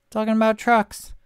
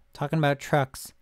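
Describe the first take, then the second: First: Louder, higher "Talking about trucks"; exasperated repeat. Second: Said in the usual way. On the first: Real, not acted. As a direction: throw up your hands on "Talking about trucks".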